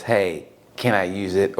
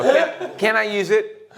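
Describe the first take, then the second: First: Low, slow imitation of a casual ask; subdued, drawn-out mock question; mock request. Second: High, slow imitation of asking; drawn-out, high mock question; mock pleading request. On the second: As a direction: ask slowly in a raised pitch.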